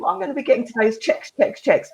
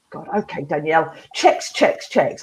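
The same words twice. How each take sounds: First: Upbeat demo. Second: Grudging dad. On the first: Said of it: "Try saying". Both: Retold or imitated.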